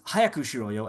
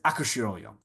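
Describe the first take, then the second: First: The opening H sound is clearly pronounced. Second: The opening H sound is dropped entirely.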